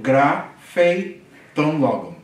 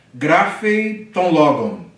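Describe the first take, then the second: First: Grapheton logon drawn out very slowly; slow Greek reading. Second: Grapheton logon read slowly, stressing grapheton; slow Greek reading. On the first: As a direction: model it once more for repeating. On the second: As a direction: model it slowly for the class. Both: Shown as a demonstration. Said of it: "Ele escreve a palavra".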